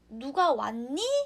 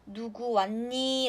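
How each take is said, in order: First: The pitch rises at the end. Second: The pitch falls at the end. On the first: The speaker asks whether anyone has come. "억양 끝을 올리게 되면은" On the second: The speaker asks who exactly has come. "밑을 내리게 되면요"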